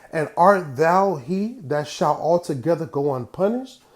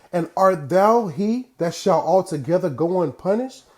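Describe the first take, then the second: Both takes have the same delivery.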